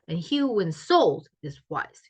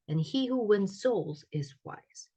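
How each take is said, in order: First: Stressed words are much stronger than unstressed ones. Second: Stressed and unstressed words differ only mildly.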